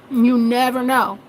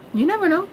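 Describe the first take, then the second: First: "You never know" said slowly, spaced out; slow and deliberate. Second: "never" lifted high; stress on never. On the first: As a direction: let it land slowly. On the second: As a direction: push up the word "never". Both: Shown as a demonstration.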